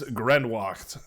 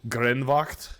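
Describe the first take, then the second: First: The W is said as an English w sound. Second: The W is said as a German v sound.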